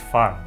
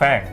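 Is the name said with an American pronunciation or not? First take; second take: non-American; American. First: The name is said without an American-sounding vowel. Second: The name is said with an American-sounding vowel. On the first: The speaker calls it right. "It's Fang" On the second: The speaker calls it wrong. "It's not Fang. ... Don't say it all American like"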